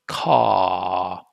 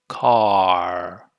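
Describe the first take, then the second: First: The vowel is drawn out with no R. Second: The final R sound is clearly pronounced. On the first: "with the British English, if you drag out that sound" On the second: "R, twice, right? There's two movements"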